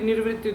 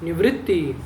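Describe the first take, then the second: First: An extra r sound comes before the v. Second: No r sound comes before the v. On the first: The speaker calls it wrong. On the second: The speaker calls it right.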